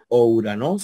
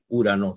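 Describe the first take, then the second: First: The word begins with an o sound before u. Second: The word begins directly with a u sound. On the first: The speaker calls it wrong. "Tú no, no, no vas a decir" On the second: The speaker calls it right. "sino vas a decir"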